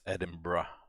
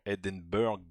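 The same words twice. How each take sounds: First: The ending sounds like 'bra'. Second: The ending sounds like 'burg', as spelled. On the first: The speaker calls it right. "you actually pronounce it as Edinburgh. So the the the burg is kind of pronounced as uh, bra" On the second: The speaker calls it wrong. "although you would read it as Edinburgh"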